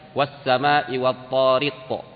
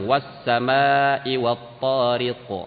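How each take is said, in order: First: The long vowel is cut short. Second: The long vowel is held long. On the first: The speaker calls it wrong. "gak boleh dibaca" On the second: The speaker calls it right. "Dia harus dibaca panjang"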